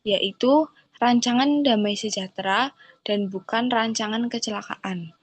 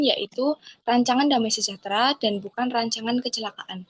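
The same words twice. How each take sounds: First: It is read at a slow tempo. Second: It is read at a fast tempo.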